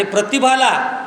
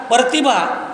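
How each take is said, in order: First: Said in the usual way. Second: प्रतिभा with "pra" split into "par"; "par-tibha", the r moved after the vowel in प्रतिभा; mispronounced word. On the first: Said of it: "त्याला प्रच म्हणावे लागेल". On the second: Shown as a demonstration. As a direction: say प्रतिभा wrongly as "partibha". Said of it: "असं नाही म्हणता येणार".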